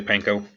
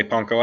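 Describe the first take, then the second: First: "panko" with a flat a as in pan; his own pronunciation. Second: "panko" with an open "ah", PAHN-ko; proper Japanese pronunciation. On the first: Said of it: "I say panko". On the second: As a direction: say "panko" with a broad a as in father. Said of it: "I'm not gonna say panko". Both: Shown as a demonstration.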